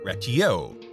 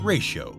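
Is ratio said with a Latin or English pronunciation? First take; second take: Latin; English. First: It is said with a Latin pronunciation. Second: It is said with an English pronunciation. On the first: "the conjugated form ratio means I count out" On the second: "Of course, we pronounce it ratio"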